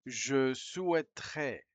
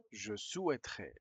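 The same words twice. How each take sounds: First: Slow and careful, like reading out to a class; slow model reading. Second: Said in the usual way. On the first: Shown as a demonstration. Teacher reading the French phrase slowly for learners. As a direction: lay each syllable out slowly.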